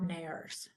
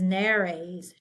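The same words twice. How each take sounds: First: The word is said with one syllable. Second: The word is said with two syllables. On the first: The speaker calls it wrong. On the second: The speaker calls it right. "This is nares, two"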